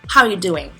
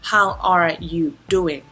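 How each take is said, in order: First: The phrase is said quickly with words run together. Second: The phrase is said slowly with every word clear. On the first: "normally people say" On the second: "เราอาจจะไม่ได้พูดแบบ serious ตลอดเวลาเช่น"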